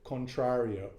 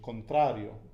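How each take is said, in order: First: It is said with an American English accent. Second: It is said with a native Spanish accent. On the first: "say it completely gringo" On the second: "the actual pronunciation"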